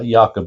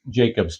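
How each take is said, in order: First: The name is said the Danish way. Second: The name is said the plain English way. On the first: The speaker calls it right. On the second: The speaker calls it wrong.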